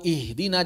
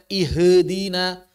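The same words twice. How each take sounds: First: The h is vowelless, going straight into d. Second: A short vowel is added after the h. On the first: The speaker calls it right. "yang sukun harus bisa dibaca sukun" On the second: The speaker calls it wrong. "jangan sampai dibaca ihdina"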